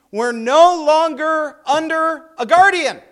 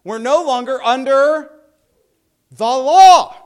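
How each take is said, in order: First: Guardian leaned on, then falling; scripture read with stress on guardian. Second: "the law" punched much louder, falling; stress on THE LAW. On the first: Teacher reading Galatians aloud to class, stress on guardian. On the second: Teacher swaps in the law for students, loud stress on "the law". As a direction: hit "the law" hard after a pause. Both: Shown as a demonstration. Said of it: "We'll just do some substitution there".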